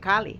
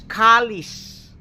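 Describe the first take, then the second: First: The word ends without an s sound. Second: The word ends with an s sound. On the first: This is the form left after the s was lost. The speaker calls it wrong. "not Kali" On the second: This is the original form of the name. The speaker calls it right. "it's Kali's"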